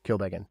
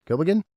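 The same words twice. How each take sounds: First: Said in the usual way. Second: Kilbeggan said high, loud and rising; questioning Kilbeggan in disbelief; baffled at the name Kilbeggan; puzzled retry. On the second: Shown as a demonstration. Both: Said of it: "Come again?".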